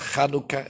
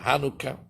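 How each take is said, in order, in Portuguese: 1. A palavra começa com um som de ch gutural. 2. A palavra começa com um som de h simples. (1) "para o americano é difícil falar o C H, eles não podem falar Hanukkah" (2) "eles vão falar Hanukkah"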